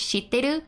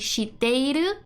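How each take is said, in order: First: The vowel after 'te' is dropped entirely. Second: The vowel after 'te' is clearly pronounced. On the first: It is a more casual way of speaking. "a little easier to say, a little more casual" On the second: It is a more formal way of speaking. "More formally"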